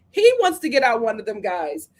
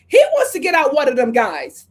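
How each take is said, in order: First: Said in the usual way. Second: Louder emphatic. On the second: Shown as a demonstration.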